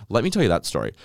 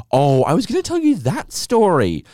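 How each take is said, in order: First: Said in the usual way. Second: Sudden remembering. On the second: Real, not acted.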